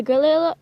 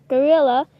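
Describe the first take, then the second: First: "gorilla" with the r slipping into an l; stumbled pronunciation. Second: "gorilla" with a clear r, louder; corrected pronunciation. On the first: Player listing animals they won't play, tongue-tripped "gorilla". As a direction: stumble on "gorilla", saying it like "golilla". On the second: Player recovering from a stutter, firm clear "gorilla". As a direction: land "gorilla" firmly with the r in place. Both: Real, not acted. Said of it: "I stuttered".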